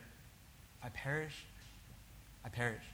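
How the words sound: It is said softly with trembling and doubt. The speaker is unsure and afraid. The speaker calls it right. "with a bit of trembling and doubt. Maybe even softly"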